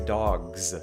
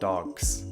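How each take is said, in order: First: The word ends in a buzzing z sound. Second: The word ends in a hissing s sound. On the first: The speaker calls it right. "that plural is actually pronounced as a Z. So you say dogs" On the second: The speaker calls it wrong. "not dogs"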